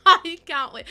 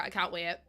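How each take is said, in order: First: Much louder and higher, bursting with glee; excited burst. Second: Said in the usual way. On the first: Real, not acted. Streamer to chat about the pizzeria build, loud excited squeal. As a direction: shout it out, can't contain the excitement.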